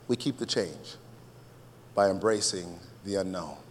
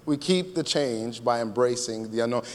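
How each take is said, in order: First: "We keep the change" soft, pause, then "by embracing the unknown" lower; soft, measured statement. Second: Said in the usual way. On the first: Shown as a demonstration. Preacher giving congregation his main line, soft and measured.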